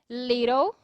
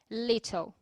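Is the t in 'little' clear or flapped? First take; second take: flapped; clear. First: The t sounds like a soft, quick r. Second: The t is said as a clear t. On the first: "com som de R" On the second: "em vez de falar little"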